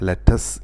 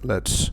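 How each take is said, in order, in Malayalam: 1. ഇതിൽ ഒരു അധിക സ്വരാക്ഷരമുണ്ട്, അതുകൊണ്ട് രണ്ട് അക്ഷരം. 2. ts എന്ന ശബ്ദത്തിൽ അവസാനിക്കുന്ന ഒരു അക്ഷരമാണിത്. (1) "ഒരിക്കലും ലെറ്റസ് എന്ന് പറയരുത്"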